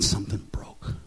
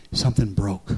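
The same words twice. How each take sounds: First: Whispered reveal. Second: Said in the usual way. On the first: Acted. Moment of release retold.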